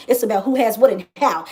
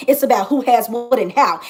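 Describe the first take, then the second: No difference in how they are said.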